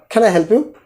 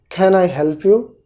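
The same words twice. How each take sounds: First: It is said at a faster pace. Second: It is said at a slower, careful pace.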